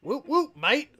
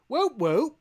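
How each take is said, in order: First: Laughing Aussie whoop whoop, mate with a rising end; mock Australian. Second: Mock British whoop. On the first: Host retries the Australian cheer, mock Aussie accent. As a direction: try again as a playful Australian. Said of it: "Or no, that sounded more". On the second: Podcast host testing an Australian cheer, mock British. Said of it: "that sounded more British".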